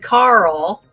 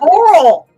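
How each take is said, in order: First: The name is said plainly as one syllable. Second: The name is drawn out in a Southern accent.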